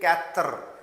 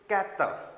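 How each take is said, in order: First: The R sound is stretched out and strong. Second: The R sound is light and barely heard. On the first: The speaker calls it wrong. "don't say it kathar. Don't uh, I mean to say stretch the sound of R" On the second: The speaker calls it right. "So it should be kathar"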